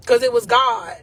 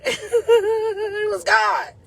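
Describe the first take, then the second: First: Said in the usual way. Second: "It was God" stretched out, slow and high, half laughing, half crying; laughing through tears. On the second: Real, not acted. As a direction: let "God" break into a tearful laugh of real joy. Tears of joy while praising God.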